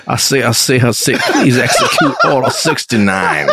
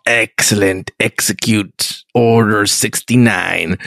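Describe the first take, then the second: First: A hint of a folksy Southern gentleman, chuckling; Southern Emperor. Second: Slow, low villain emperor giving an order. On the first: Podcaster redoes the Emperor's order as a Southern gentleman, half-laughing. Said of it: "but he says it like this". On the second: Retold or imitated. Podcaster mimics the Emperor giving the order, slow and low. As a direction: drag it out low like a sinister emperor. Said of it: "me doing voices".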